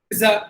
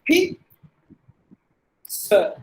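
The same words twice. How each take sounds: First: The middle consonant is a z sound. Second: The middle consonant is not a z sound. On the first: The speaker calls it wrong. "Z sound கொடுக்குறோம்" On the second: The speaker calls it right. "you should not give any Z sound at all"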